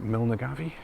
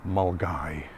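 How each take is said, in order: First: The name is said with four syllables. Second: The name is said with two syllables. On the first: The speaker calls it wrong. "Is it Milnagavi?" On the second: The speaker calls it right. "It's actually Mulgai"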